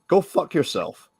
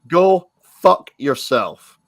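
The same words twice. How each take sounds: First: It is said at normal speed. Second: It is said slowly and deliberately.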